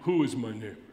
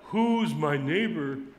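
First: The question sounds guarded, reluctant and legalistic. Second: The question sounds open, warm and eager. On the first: The asker wants to limit his obligations. "I know that tone of voice. It's exactly, "Who is my neighbor? Who am I obligated to?"" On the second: The asker wants to welcome others. "It's not, "Who's my neighbor? Let me welcome.""

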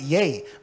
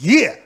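First: The word rhymes with day. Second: The word rhymes with meh. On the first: The speaker calls it wrong. "Some people pronounce it yay" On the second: The speaker calls it right. "It don't say yay. It says, yeah"

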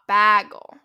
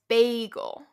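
First: The first vowel is open, like in 'bag'. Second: The first vowel is closed, like in 'bay'. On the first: The speaker calls it wrong. "Your mouth should be more closed" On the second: The speaker calls it right. "say it as if it was B-A-Y"

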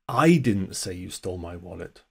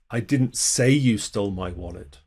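First: The stress falls on the word 'I'. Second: The stress falls on the word 'say'. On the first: Someone else said it. "Someone else said it. Wasn't me. I didn't say it" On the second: The speaker thinks it but never said it. "You did, I just never said it"

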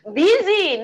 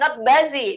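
First: The first vowel sounds like 'i'. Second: The first vowel sounds like 'u'. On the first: The speaker calls it right. "tulisannya busy kita bacanya busy" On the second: The speaker calls it wrong.

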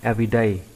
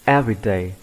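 First: The stress is on a later syllable. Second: The stress is on the first syllable. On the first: The speaker calls it wrong. "chứ không đọc là everyday" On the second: The speaker calls it right. "đọc nhấn mạnh lên là e"

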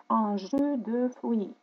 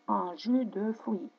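Both takes have the same delivery.

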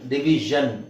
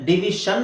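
First: The middle consonant is a voiced 'zh' sound. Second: The middle consonant is a voiceless 'sh' sound. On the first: The speaker calls it right. "ಡಿವಿಷನ್ ಡಿವಿಷನ್ ಡಿವಿಷನ್ ಝನ್" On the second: The speaker calls it wrong. "ಡಿವಿಷನ್ ಅಲ್ಲ"

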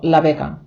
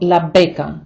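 First: The b is soft, lips not fully closed. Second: The b is a full closed stop. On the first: The speaker calls it right. "ми кажемо «ла бека»" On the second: The speaker calls it wrong. "Ми не кажемо «ла бека»"

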